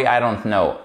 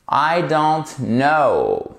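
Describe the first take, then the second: First: Said in the usual way. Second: Very slow, drawn-out "I don't know"; model pronunciation. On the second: Shown as a demonstration. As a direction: stretch "I don't know", falling on "know". ("I don't know" très lent, descendant) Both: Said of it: "répétons cette phrase".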